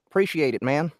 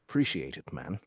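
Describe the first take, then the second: First: It is said in a Southern American accent. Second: It is said in an attempted British accent. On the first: The speaker calls it right. "That's fucking southern" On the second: The speaker calls it wrong. "I can't I can't say that with the Brit"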